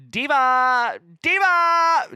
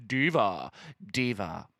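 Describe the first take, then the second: First: High, loud cry of DIVA; mock scream. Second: Said in the usual way. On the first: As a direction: imitate a screaming drag queen. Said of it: "I think she just screams".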